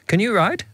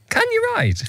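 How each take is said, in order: First: It is asked in a calm, normal tone. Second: It is asked in a harsh, upsetting tone.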